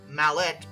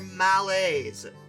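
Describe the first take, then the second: First: The word ends with a clear T sound. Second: The word ends without a T sound.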